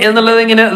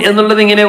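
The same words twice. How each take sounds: The two takes are said the same way.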